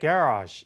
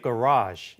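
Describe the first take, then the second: First: It is said with a British pronunciation. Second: It is said with an American pronunciation.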